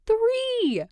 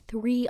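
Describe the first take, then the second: First: High excited squeal on Three. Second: Said in the usual way. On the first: Acted. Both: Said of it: "she squeals".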